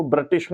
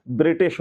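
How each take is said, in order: First: ब्रिटिश with a clipped first vowel, "british"; wrong pronunciation. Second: ब्रिटिश with a short i after br; correct pronunciation. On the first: Teacher rejecting a spelling for students, ब्रिटिश mispronounced. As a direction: say ब्रिटिश as the misspelling reads. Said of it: "ब्रिटिश नहीं होता". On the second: Teacher giving students the correct form, ब्रिटिश pronounced with short i. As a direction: say ब्रिटिश as "bri-tish". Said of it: "छोटी की मात्रा लगती है". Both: Shown as a demonstration.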